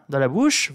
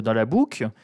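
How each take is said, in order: First: Said in the usual way. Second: "boucle" said in a Northern French accent; "dans la boucle" slipping into a Nord accent; Northern accent slip. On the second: Real, not acted. Mocking the rich, "boucle" slips into Nord accent. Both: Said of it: "c'est mon accent du Nord qui revient".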